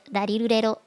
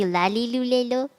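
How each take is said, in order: First: Each syllable starts with a sound between L and R. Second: Each syllable starts with a clear L sound. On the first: The speaker calls it right. "it's in the middle of the two" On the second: The speaker calls it wrong. "if it really was an L sound"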